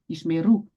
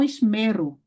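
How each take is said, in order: First: The stress is on the last syllable. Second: The stress is on the middle syllable. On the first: The speaker calls it right. "você não pode pronunciar a tônica no mem, e sim no ru" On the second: The speaker calls it wrong. "e não esmero"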